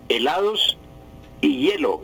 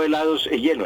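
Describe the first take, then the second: First: "helados y hielo" with a clear "y" before "hielo"; correct form. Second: "helados y hielo" said quicker as "helados e hielo", with an "e"; wrong form named. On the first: Language teacher on radio, modelling the right conjunction. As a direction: say "y hielo", linking the i-sound into "hielo". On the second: Language teacher on radio, rattling off the wrong "e". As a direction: toss off the rejected "e hielo" faster. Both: Shown as a demonstration. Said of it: "y no helados y hielo".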